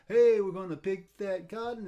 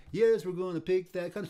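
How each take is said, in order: First: Called out louder, "Hey" stretched; calling out the call of a work song; field call. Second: Answered out louder, "Yes" stretched; the worker's reply in call and response; field response. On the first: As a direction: sing out the call across a field. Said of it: "Like one smart person say". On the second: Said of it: "the other guy would say". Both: Retold or imitated.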